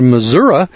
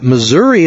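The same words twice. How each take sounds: First: Missouri said as "mi-ZUR-uh"; local pronunciation. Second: Missouri said as "mi-ZUR-ee"; outsider pronunciation. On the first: Coming out here among locals, Missouri as "Mizzourah". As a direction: end Missouri on "uh". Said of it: "we'd spell it M I S S O U R A". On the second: Newcomer saying it to locals, Missouri ending in "ee". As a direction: end Missouri on a clear "ee". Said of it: "and you pronounce that". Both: Shown as a demonstration.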